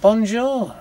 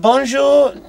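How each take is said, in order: First: It is said with a northern English accent. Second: It is said with a French accent. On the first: The other man turns out to be English. "that doesn't sound like a French accent" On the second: The speaker tries to sound French. "speaking in your best French"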